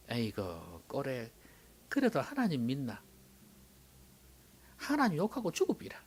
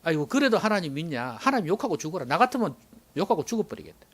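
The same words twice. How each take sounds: First: Wife's quiet scolding in Gyeongsang dialect. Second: Wife's scolding in standard Korean; Job's nagging wife. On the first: Shown as a demonstration. Job's wife tells him to give up on God, Gyeongsang dialect. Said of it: "이제 경상도 버전으로 한번 해볼까요?". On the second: Acted. Job's wife urges him to curse God, mild scolding. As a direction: nag sharply in standard Korean, without the dialect. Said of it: "마누라가 와가 또 뭐라 하는지 아십니까?".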